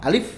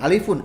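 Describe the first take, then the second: First: The word stops sharply on the final f. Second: The word ends with an added un syllable. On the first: The speaker calls it right. "Af-nya disukunkan" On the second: The speaker calls it wrong. "bukan alifun"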